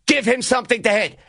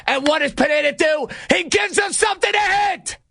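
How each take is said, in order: First: Said in the usual way. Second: Outraged disbelief. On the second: Real, not acted. Host lamenting Pineda's pitch to Encarnacion, outraged disbelief. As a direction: pitch shooting up into an exasperated yell. Outraged repeat of the broken rule.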